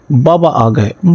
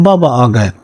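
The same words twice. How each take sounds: First: "بابا" lifted, rising at the end; happy children's call. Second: "بابا" stressed, then falling to a close; children's call, settling. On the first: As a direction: call out "بابا آ گئے" gladly, voice going up. ("بابا" پر آواز اوپر جاتی ہوئی، خوشی سے پکارنا) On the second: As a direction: repeat "بابا آ گئے" gladly, landing down. ("بابا" پر زور، آخر میں آواز نیچے آتی ہوئی) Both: A narrator's reading. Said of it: "بچے اس کو دیکھ کر دوڑ پڑتے اور کہتے".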